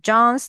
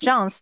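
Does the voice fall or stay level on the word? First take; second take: level; falls. First: The pitch does not fall at the end. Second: The pitch falls at the end of the word. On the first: More words are still coming. "我就会一直等等你讲完 groceries，因为我没有听到语调" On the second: The sentence is finished. "声调往下表示讲完"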